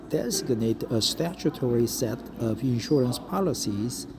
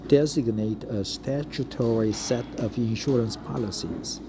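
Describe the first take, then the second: No difference in how they are said.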